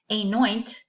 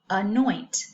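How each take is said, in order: First: The first vowel sounds like the letter's name. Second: The first vowel is a short 'ah' sound. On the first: The speaker calls it wrong. "that first letter is could be saying its name, its long sound" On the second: The speaker calls it right. "the right pronunciation for that"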